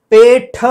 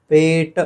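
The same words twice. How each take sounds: First: पेठ ending in a puffed ठ; wrong final aspiration. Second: पेट with a plain unpuffed ट; unaspirated ending. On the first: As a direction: stress a breath burst on the ठ of पेठ. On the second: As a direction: end पेट on ṭ without a breath burst. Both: Shown as a demonstration. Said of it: "पेठ नहीं है वो".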